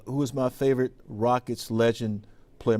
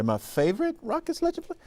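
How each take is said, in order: First: Said in the usual way. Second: High-pitched, surprised repeat of the question; incredulous echo. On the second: Real, not acted. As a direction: voice shoots way up, taken aback.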